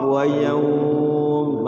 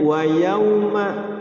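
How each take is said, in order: First: The phrase ends on an m consonant. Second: The phrase ends with a short a vowel. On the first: The reader stops on this word. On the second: The reading continues without stopping.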